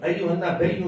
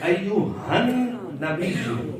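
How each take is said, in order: First: The phrase is said without a 'han' sound. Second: The phrase is said with a 'han' sound. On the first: The speaker calls it wrong. "अयु नबीयु नहीं है" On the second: The speaker calls it right. "तो अयु हन नबीयु"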